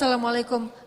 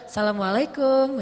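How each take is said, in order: First: The greeting is said in a plain tone. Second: The greeting is said in a flirtatious tone.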